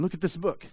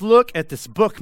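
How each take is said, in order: First: Softer, pressing repeat; quieter repeat. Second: Loud, urgent preacher's call; loud Paul voicing to the church. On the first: Retold or imitated. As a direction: drop the volume and press the point. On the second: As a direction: hold up the book and call it out loud. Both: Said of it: "Paul steps into this church and he says".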